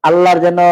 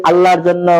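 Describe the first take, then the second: Both takes have the same delivery.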